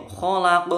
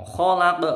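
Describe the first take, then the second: Both takes have the same delivery.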